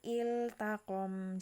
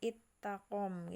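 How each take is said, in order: First: The L sound is pronounced clearly before the T. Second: The L is merged into a doubled T sound. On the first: The speaker calls it right. "la-nya jelas" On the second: The speaker calls it wrong. "jangan jangan ittakom gitu ya"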